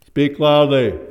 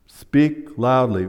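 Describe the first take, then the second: First: Loud, higher, ringing delivery; a booming demonstration; loud demo. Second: Slow, even gloss of the word; measured teacher's gloss; slow explanation. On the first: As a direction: show them what loudly sounds like. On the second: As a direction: spell out the meaning calmly. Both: Shown as a demonstration.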